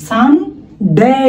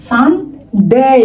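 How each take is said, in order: No difference in how they are said.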